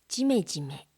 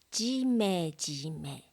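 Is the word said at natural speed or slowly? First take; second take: natural; slow. First: The word is said at natural speed. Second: The word is said slowly and carefully. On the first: "ナチュラルスピードで読みます" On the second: "まず単語をゆっくり読みます"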